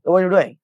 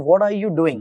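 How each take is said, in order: First: The word 'are' is dropped and words run together. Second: Every word, including 'are', is said in full. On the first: This is how native speakers say it casually. "गोरे बोलते हैं ना" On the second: This is the full sentence actually meant. "असल में बोले उसने"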